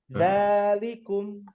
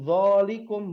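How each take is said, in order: First: The first vowel sounds like a light 'a'. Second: The first vowel sounds like a heavy 'o'. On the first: The speaker calls it right. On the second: The speaker calls it wrong. "bukan zolikum, bukan"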